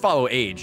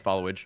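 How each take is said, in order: First: It is said as two separate words. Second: It is said as one blended word. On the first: The speaker calls it right. "It's follow age. Yeah, it's two words" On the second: The speaker calls it wrong. "I would just say followage"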